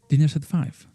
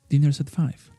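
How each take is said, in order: First: The words run together smoothly, fully linked. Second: The same.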